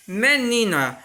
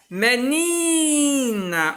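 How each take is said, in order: First: Said in the usual way. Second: Menina with a very long, higher-pitched "ni"; stress on "ni". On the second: Shown as a demonstration. Teacher showing pupils the tonic syllable, menina with drawn-out "ni". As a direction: stretch the middle syllable of menina right out. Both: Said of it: "o ni eu falo com mais intensidade".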